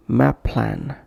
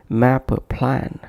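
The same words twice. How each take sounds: First: MAP PLAN joined on a single firm p; one shared consonant. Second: MAP PLAN with an "uh" between: "mappa plan"; extra vowel inserted. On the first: Teacher listing correct examples, one shared consonant. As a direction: flow "map" into "plan" without a break. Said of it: "making one impactful sound for both". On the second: Teacher demonstrating a wrong pronunciation, extra vowel inserted. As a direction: add a schwa after "map" before "plan". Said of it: "avoid bringing any other sound between". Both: Shown as a demonstration.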